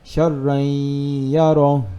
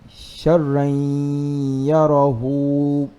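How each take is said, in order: First: The last word ends without its final vowel. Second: The last word ends with a short u vowel. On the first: The reading stops at this point. "if we stop, then we say" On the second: The reading continues into the next words. "if we proceed, we're gonna say"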